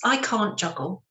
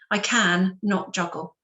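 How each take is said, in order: First: The negative is said as one contracted word. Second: The negative is split into two separate words. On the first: The person is unable to do it. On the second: The person is choosing not to do it.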